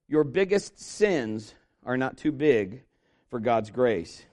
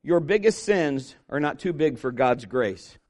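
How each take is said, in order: First: "Your biggest sins are not too big for God's grace" said again slower, lower, each word weighted; slow emphatic repeat. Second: Said in the usual way. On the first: Shown as a demonstration. Preacher repeating his first point to the congregation, slow and emphatic. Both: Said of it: "Here's number one".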